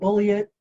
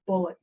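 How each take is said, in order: First: It sounds like bully it, three syllables. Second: It sounds like the word bullet, two syllables. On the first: The speaker calls it wrong. "not bully it" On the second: The speaker calls it right. "like the ammunition, son"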